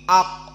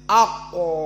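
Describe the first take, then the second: First: The k closes abruptly with nothing after it. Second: A short vowel sound trails after the k. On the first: The speaker calls it right. "tapi ak" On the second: The speaker calls it wrong. "tidak boleh ako"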